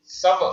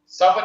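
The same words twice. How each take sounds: First: सब with स stressed and lengthened; सब with a long, stressed स; correct pronunciation. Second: सब with a short स; सब clipped short on स; wrong pronunciation. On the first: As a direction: lean on स in सब. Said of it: "सा में स्ट्रेस आ रहा है". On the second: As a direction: say सब briefly with short स as the error. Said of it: "सब नहीं है". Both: Shown as a demonstration.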